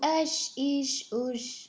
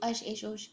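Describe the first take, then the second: First: The syllables are said slowly and clearly. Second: The syllables are rushed and said quickly. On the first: The speaker calls it right. "بہت کلیئر کر رہی ہوں" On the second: The speaker calls it wrong. "اس طریقے سے جلدی جلدی ادا کر دیں, دیٹس ناٹ گوئنگ ٹو بی فائن"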